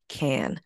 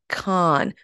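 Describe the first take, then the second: First: The name sounds like the word 'can'. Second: The name does not sound like 'can'. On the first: This is how insiders say it. The speaker calls it right. "It's actually Cannes, like tomato can" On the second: The speaker is trying to sound fancy. The speaker calls it wrong. "try to sound fancy by saying Cannes"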